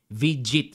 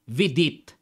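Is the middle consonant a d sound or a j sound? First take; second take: j sound; d sound. First: The middle consonant is a j sound. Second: The middle consonant is a d sound. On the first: This is how it is said abroad. "Vijit sa abroad yan, sa ibang bansa" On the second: This is how locals read it from the spelling. "sa atin yan, kung tayo babasa, Vidit"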